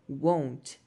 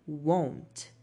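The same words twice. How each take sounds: Both takes have the same delivery.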